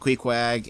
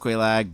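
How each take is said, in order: First: The name is said with a K sound, ending 'queg'. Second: The name is said with an L sound, ending 'laag'. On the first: A loved one used to say the name this way. The speaker calls it wrong. "my late wife used to pronounce it Queequeg" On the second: This is the usual way to say the name. The speaker calls it right. "I know it's pronounced Quelaag"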